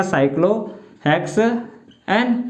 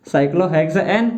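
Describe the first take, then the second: First: Very slow, with gaps inside cyclohexane; teacher spelling out cyclohexane by sound; syllable-by-syllable dictation. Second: Said in the usual way. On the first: Shown as a demonstration. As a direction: draw out cyclohexane slowly in separate pieces. Teacher dictates the term in pieces.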